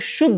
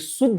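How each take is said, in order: First: The word begins with an 'sh' sound. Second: The word begins with a plain 's' sound. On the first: The speaker calls it right. "तालव्य श होता है" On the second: The speaker calls it wrong. "ये शुद्ध नहीं है"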